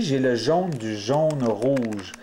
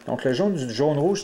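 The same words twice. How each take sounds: First: Slow, each word set apart for the learners; slow and deliberate. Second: Said in the usual way. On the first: Shown as a demonstration. Teacher naming the cube piece slowly for viewers, slow and deliberate. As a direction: spell out the colours slowly, like a teacher. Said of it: "teacher spelling out cube piece". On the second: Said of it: "teacher repeating the piece name".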